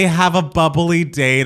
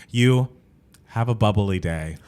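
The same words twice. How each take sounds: First: Slow, bright, louder mock-cheerful sign-off; enthusiastic. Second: Slow, reluctant forced cheer, a little lower; pained, forced cheer. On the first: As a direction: sell it like a peppy customer-service chirp. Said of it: "as enthusiastically as you just stated it". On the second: Retold or imitated. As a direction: push the line out as if through gritted teeth. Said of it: "it was pained".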